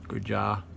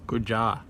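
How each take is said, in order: Both takes have the same delivery.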